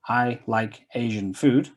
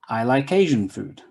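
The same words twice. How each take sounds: First: Like and Asian are said separately. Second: The k is linked onto Asian.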